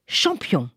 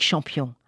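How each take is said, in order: First: Said in the usual way. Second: Tender. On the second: A narrator's reading. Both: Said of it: "Champion repeated".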